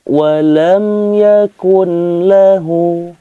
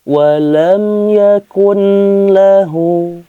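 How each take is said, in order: No difference in how they are said.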